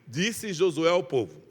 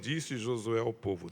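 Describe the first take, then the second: First: It is read loudly, projecting the voice. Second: It is read weakly, without projecting.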